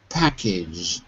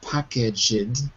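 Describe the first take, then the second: First: The ending joins the g sound, no extra syllable. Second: The ending is said as an extra syllable. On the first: The speaker calls it right. "but listen again" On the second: The speaker calls it wrong. "you're adding an extra syllable. It's not packaged"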